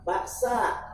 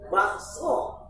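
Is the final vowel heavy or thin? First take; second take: thin; heavy. First: The final vowel is thin and light. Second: The final vowel is heavy and rounded. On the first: The vendor would not turn around. The speaker calls it wrong. "nggak isti'la itu" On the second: The vendor would turn around. The speaker calls it right. "Kalau isti'la, wow"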